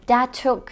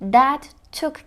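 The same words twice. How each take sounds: First: The t at the end of 'that' is dropped. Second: The t at the end of 'that' is pronounced. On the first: "aslında that took şeklinde duyarız" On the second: "kelime çiftini"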